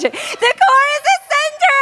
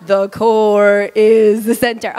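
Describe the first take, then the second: First: High-pitched, exaggerated excited cry; really excited. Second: Slow, low, droning delivery; mock unenthusiastic. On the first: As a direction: say it like you're thrilled, laughing into it. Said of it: "say it like you're really excited about it". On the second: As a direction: drag it out low, with no excitement at all. Contrasting unexcited demo of audience response. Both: Shown as a demonstration.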